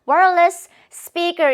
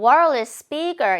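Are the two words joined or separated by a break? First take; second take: separated; joined. First: There is a break between the two words. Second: The two words run together without a break. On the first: The speaker calls it wrong. "이렇게 끊어 읽는 원어민이 거의 없을 거예요" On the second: The speaker calls it right. "이렇게 붙여 발음이 된다는 거예요"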